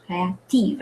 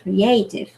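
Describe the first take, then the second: First: Créative with the stress on the final syllable; French créative, land on the end. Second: Creative with the stress on the second syllable; English Creative, cray-AY-tiv. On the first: Teacher contrasting the two stresses, French créative stressed at the end. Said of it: "at the end". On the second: Teacher contrasting the two stresses, English Creative on second syllable. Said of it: "On the second syllable". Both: Shown as a demonstration.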